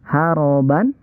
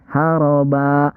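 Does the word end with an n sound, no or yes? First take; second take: yes; no. First: The word ends with an n sound. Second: The word ends on a vowel, without n. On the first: The speaker calls it wrong. "Kalau yang dua kan dibacanya an ya" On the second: The speaker calls it right. "Ini haroba, bukan haroban"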